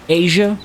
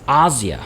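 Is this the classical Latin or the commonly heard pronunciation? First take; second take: commonly heard; classical Latin. First: It is said in the commonly heard way. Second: It is said with classical Latin pronunciation. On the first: The speaker calls it wrong. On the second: The speaker calls it right. "it's Asia"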